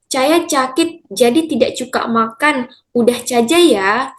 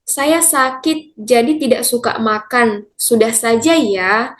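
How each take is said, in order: First: The s sounds are pronounced as ch. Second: The s sounds are pronounced as plain s. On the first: "fonem S akan dilafalkan atau dibunyikan menjadi C" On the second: "misalnya kita ambil kalimat"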